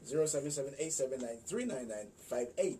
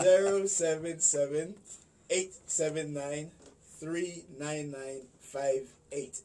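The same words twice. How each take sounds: First: The number is read at a normal pace. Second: The number is read slowly.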